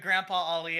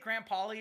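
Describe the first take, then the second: First: The name sounds like Grandpa followed by Ali. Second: The name sounds like Graham followed by Pauly. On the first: The speaker calls it right. "I'm so sorry" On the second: The speaker calls it wrong. "or have I been saying it wrong?"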